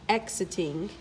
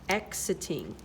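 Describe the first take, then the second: The two takes are said the same way.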